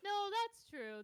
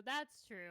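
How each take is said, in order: First: Loud, high agreement; emphatic agreement. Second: Said in the usual way. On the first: Real, not acted.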